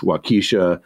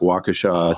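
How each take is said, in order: First: It is pronounced the way locals say it. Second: It is pronounced the way the GPS says it. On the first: The speaker calls it right. "It's Waukesha" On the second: The speaker calls it wrong. "It's not Waukesha to Garmin"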